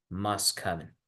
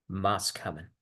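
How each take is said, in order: Both takes have the same delivery.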